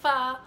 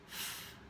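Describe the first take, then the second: First: The f sound is followed by a short vowel. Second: The f sound is said alone, with no vowel. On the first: The speaker calls it wrong. "We don't say fa" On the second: The speaker calls it right. "say f, until they say it correctly"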